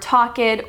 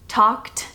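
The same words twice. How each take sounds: First: The -ed is spoken as a separate syllable. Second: The -ed adds no extra syllable. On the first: The speaker calls it wrong. "You don't say" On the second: The speaker calls it right. "You say"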